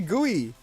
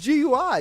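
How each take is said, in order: First: It is said as one word, gooey. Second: It is said as three separate letters. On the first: The speaker calls it wrong. "You don't say G U I" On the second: The speaker calls it right. "It's G U I"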